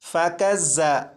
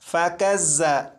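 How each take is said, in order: No difference in how they are said.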